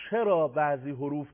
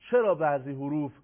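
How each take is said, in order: Both takes have the same delivery.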